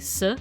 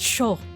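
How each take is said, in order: First: The consonant is a plain s sound. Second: The consonant is an sh sound. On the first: The speaker calls it wrong. "Wouldn't that just be S?" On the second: The speaker calls it right. "No, it's it's sho"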